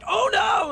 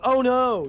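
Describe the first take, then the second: First: It is said with panic, freaking out. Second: It is said flatly, without alarm.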